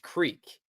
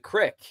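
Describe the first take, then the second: First: The word has its careful, read-aloud pronunciation. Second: The word has its casual, regional spoken pronunciation. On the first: This is how the word is read from the page. "when I read that word, it is creek" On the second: This is how locals say it in everyday talk. "when you talk about going to the crick, it's a real thing"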